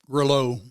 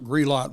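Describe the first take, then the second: First: The name rhymes with Brillo. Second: The name does not rhyme with Brillo. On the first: This is how the navigation voice said it. The speaker calls it wrong. "It was Grillo. ... sounded like Brillo" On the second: This is how locals say it. The speaker calls it right. "Grelot Road was not Grelot Road"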